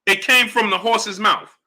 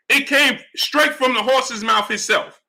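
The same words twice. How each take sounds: First: Said in the usual way. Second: Each word laid down slowly and firmly, stress on "came"; slow, emphatic restatement. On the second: Real, not acted. Streamer repeating the point to his chat, slow and emphatic. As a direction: drive "came" home and take it slow.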